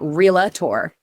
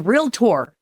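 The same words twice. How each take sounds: First: It is said with three syllables, real-a-tor. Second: It is said with two syllables, real-tor. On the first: The speaker calls it wrong. "It's not realtor. Like, people add an A in there in the middle" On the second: The speaker calls it right. "It's realtor"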